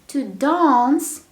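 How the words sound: It is said with a British accent. "British pronunciation"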